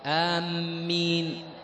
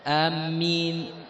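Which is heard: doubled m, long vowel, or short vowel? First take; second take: doubled m; doubled m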